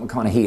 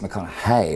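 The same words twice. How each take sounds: First: The last syllable ends in an 'ee' sound. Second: The last syllable ends in an 'ay' sound. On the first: The speaker calls it wrong. "it's not McConaughey" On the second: The speaker calls it right. "it's McConaughey. It's not he, it's hey"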